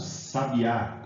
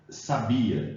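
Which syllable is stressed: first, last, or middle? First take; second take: last; middle. First: The stress is on the last syllable. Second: The stress is on the middle syllable. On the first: It names a bird. "a sílaba tônica está no A" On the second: It is the verb meaning knew. "No primeiro caso"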